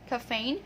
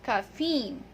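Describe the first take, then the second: First: The second vowel is a long A sound. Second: The second vowel is a long E sound. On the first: The speaker calls it wrong. "So it's not A" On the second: The speaker calls it right. "It's long E"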